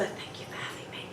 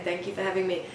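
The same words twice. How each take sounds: First: Much softer, whispered prompt; hushed whisper at a play date pickup. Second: Said in the usual way. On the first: Retold or imitated. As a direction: whisper the words for the child to copy. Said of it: "for years I would whisper". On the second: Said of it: "And they'd say".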